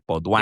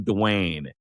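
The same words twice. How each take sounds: First: It is said the French way, without a clear N. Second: It is said the English way, with a clear N. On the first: "I was trying to French it up like Baudouin, you know, like not even saying the N" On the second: "You're like Mark Twain"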